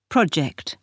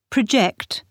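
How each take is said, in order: First: "project" with the weight on PRO; noun stress. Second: "Project" with the weight on JECT; verb stress. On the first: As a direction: stress on the first syllable, PROject. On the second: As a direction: stress on the second syllable, proJECT. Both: Shown as a demonstration. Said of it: "the stress can move".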